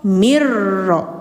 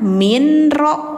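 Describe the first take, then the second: First: The n merges into a doubled r sound. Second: A clear n sound comes before the r. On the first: The speaker calls it right. "mirro gitu" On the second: The speaker calls it wrong. "Bacanya jangan minro"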